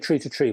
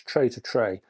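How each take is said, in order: First: The vowel sounds like the word 'tree'. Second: The vowel sounds like the word 'tray'. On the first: The speaker calls it wrong. "I used to say Tree to Tree" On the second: The speaker calls it right. "but I think it's Tray to Tray"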